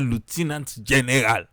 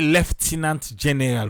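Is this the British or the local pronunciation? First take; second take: local; British. First: It is said the way locals say it. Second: It is said the British way. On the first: "For we now say" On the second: "the British then and then say"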